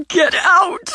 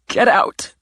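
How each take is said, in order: First: High, loud, anguished scream of Get out!; screamed order. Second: A whispered but forceful get out; strained order. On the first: Simone screaming at her sister to leave, high and loud. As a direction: let it explode into a cry. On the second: Simone ordering her sister out, whispered and forceful. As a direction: hiss the order under the breath. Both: Acted.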